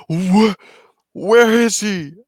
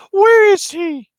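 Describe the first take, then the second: First: A bit higher and slower, alarmed; counselor's alarmed question. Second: Put-on very high, loud girlish squeak; girl's voice. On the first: Retold or imitated. Kid voicing the counselor, first try, mildly higher. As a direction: ask it as a worried official. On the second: Kid corrects himself, counselor in a very high girl's voice. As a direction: squeak it like a small girl. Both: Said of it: "like, a girl's voice".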